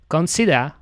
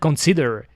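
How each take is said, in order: First: It is said with a British accent. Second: It is said with an American accent. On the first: "he said it the, the British way" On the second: "he didn't said consider"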